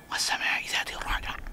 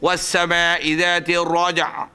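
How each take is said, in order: First: It is recited quietly, almost under the breath. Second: It is recited aloud in a full voice.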